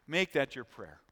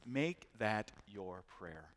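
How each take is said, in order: First: Said in the usual way. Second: Slow and much softer, almost to himself; hushed exhortation. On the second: Shown as a demonstration. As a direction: let it sink in, slowed right down and soft. Repeated exhortation, first take hushed.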